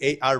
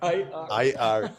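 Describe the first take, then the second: First: The first letter sounds like 'ay'. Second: The first letter sounds like 'eye'. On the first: The speaker calls it wrong. "I always say A R" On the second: The speaker calls it right. "the right pronunciation in English is I, I R"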